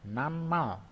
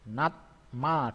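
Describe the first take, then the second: First: The consonant before m is said as n. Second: The consonant before m is said as t.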